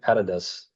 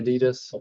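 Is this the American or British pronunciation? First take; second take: British; American. First: It is said the British way. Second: It is said the American way.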